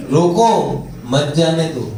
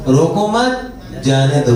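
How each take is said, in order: First: रोको rising, a break, then मत जाने दो falling; pause after रोको. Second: रोको मत rising together, a break, then जाने दो low; pause after मत. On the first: Teacher showing where the comma goes, pause after रोको. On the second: Teacher showing the other comma, pause after मत. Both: Shown as a demonstration. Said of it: "coma कहाँ लगा है?".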